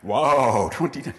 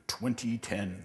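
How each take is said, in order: First: "Wow" burst out louder, then "twenty ten" dropping in wonder; mock awed wow. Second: Said in the usual way. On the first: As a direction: gasp at "twenty ten" like it's magic. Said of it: "That's a really cool". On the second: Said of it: "it will sound really cool in nineteen eighty-eight".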